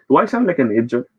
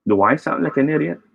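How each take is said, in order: First: Idiot said as ID-jut, d turned to j; mispronounced idiot. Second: Idiot said as ID-ee-ut, clear d; correct idiot. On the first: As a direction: say idiot as ij-jut, swallowing the middle. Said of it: "But if we say it this way". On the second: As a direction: say idiot with a clean d and ee sound. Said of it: "if I say that that way". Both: Shown as a demonstration.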